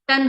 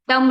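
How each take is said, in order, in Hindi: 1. शब्द n की आवाज़ से खत्म होता है। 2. शब्द m की आवाज़ से खत्म होता है। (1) "टन होना चाहिए" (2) "एम नहीं, टम नहीं"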